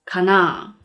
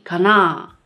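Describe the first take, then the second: The two takes are said the same way.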